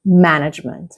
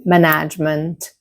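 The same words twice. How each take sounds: First: Management stressed on MAN; careful model management, beat on the first syllable. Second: Management mis-stressed as ma-NAGE-ment; learner's mistake in management, stressed on NAGE; wrong second-syllable stress. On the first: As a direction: hit MAN-agement right at the start. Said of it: "the first syllable". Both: Shown as a demonstration.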